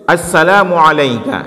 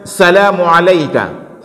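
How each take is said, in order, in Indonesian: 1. Diawali bunyi 'as' sebelum 'salamu'. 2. Langsung diawali 'sa', tanpa 'as'. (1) "kita baca dengan as-salam" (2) "Jangan kita baca salamu alayka"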